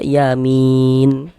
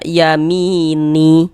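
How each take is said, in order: First: The word ends on a silent n, no vowel. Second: The word ends with a short vowel after n. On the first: The speaker calls it right. "Tapi kita baca yamin" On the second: The speaker calls it wrong. "Jangan dibaca yamini, ni baru berhenti, berwakaf. Jangan, salah"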